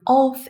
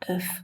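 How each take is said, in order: First: It is said with a full, clear vowel. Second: It is said quickly with a reduced vowel. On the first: "If I say it on its own, it's very strong" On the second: "but in a sentence, it becomes of"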